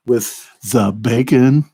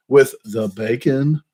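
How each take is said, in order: First: Mumbled hillbilly drawl. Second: Said in the usual way. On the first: Shown as a demonstration. Mukbang vlogger testing a mic, slow Sling Blade drawl. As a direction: drag it out like Karl from Sling Blade. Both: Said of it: "the second one sound better?".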